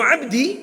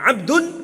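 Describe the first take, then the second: First: The word ends in the vowel i. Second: The word ends in the vowel u. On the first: It carries other meanings. "ada beberapa makna lain pula" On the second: He is the one doing the action. "kalau Abdun itu berarti dia pelakunya"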